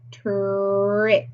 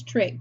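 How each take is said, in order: First: "Trick" stretched out with a long held r; slow, blended "Trick" for a phonics class; word on a curve. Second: Said in the usual way. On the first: Shown as a demonstration. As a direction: draw out the sounds of "Trick" in one glide. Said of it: "Word on the curve is trick". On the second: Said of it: "Word on the curve is".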